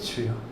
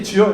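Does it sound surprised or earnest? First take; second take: earnest; surprised. First: It is said as an earnest, heartfelt cry. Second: It is said as a startled exclamation.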